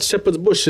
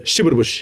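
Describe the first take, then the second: First: Said in the usual way. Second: Shepherd Bush with short "shib-ud", no s; dad's pronunciation. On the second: Retold or imitated. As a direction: imitate dad saying Shepherd Bush as "shibbed bush". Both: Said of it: "when I tell my dad Shepherd's Bush".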